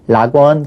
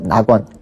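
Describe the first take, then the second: First: The word begins with an R sound. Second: The word begins with an N sound. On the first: The speaker calls it wrong. "락원 그렇게 발음 안 하고" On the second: The speaker calls it right.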